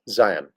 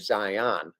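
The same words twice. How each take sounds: First: The stress is on the first syllable. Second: The stress is on the second syllable. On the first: The speaker calls it right. "the emphasis is really on the I, not the on" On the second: The speaker calls it wrong. "I say Zion because that's not the way I was raised"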